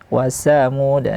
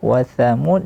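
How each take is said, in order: First: It begins with an s sound. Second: It begins with a th sound. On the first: The speaker calls it wrong. "sering terjadi kesalahan uh, dibaca dengan huruf sin" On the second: The speaker calls it right. "tha jangan berganti ke huruf sin"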